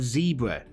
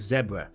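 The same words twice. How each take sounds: First: It is said with an American pronunciation. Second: It is said with a British pronunciation. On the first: "people saying ... American words" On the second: "instead of"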